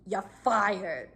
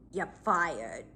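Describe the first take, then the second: First: Flat, emotionless repeat; no emotion. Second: Cold deadpan "You're fired"; no emotion. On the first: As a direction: drop it with zero feeling. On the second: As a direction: say it totally flat and cold. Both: Retold or imitated. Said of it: "Like, no emotion whatsoever".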